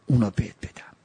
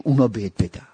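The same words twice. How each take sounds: First: Whispered repeat of اونا بهت بدم, no voice. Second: Said in the usual way. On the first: Shown as a demonstration. Repeats line, second time whispered.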